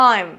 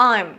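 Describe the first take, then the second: Both takes have the same delivery.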